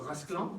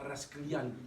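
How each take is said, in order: First: The last syllable has no 'y' glide. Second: The last syllable has a 'y' glide. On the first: The speaker calls it right. "Non, Rasclan. Il n'y a pas de Yann" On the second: The speaker calls it wrong. "on prononce pas Rasclian"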